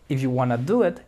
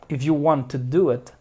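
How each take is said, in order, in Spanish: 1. 'Want to' se reduce a 'wanna'. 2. 'Want to' se dice como dos palabras completas. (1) "Los americanos sí dicen wanna" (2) "Ellos dirían"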